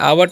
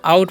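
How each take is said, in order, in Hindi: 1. स्वर 'w' के साथ दो अक्षरों में बँटता है। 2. स्वर एक ही अक्षर में सहजता से फिसलता है। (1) "आवट नहीं पढ़ना है" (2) "इसे हम आउट पढ़ते हैं"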